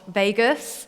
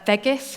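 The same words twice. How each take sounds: First: It is said like the American city name. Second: It is said like the Swiss town name. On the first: It names the American gambling city. The speaker calls it wrong. "not Vegas" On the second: It names the Swiss lakeside town. The speaker calls it right. "Vegas, not Vegas"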